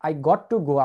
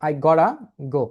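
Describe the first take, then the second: First: Got to is said as two full words. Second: Got to is squeezed into one word, gotta. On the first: "যেমন I got to go" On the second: "এটা না বলে আপনি বলতে পারেন I gotta go"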